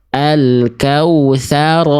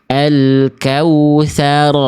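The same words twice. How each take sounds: The two takes are said the same way.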